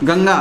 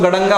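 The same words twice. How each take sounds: First: गंगा with a velar nasal, ङ sound before ग; correct Ganga. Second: गड़ंगा with a retroflex ण-like nasal, tongue curled back; wrong retroflex Ganga. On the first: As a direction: say गंगा as gaŋ-gaa, nasal from the back of the mouth. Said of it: "जैसे अपन बोलते हैं गंगा". (गंगा का सही उच्चारण, कंठ्य ङ के साथ) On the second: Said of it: "ये गंगा नहीं होता". (गड़ंगा, मूर्धन्य ण वाला गलत उच्चारण) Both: Shown as a demonstration.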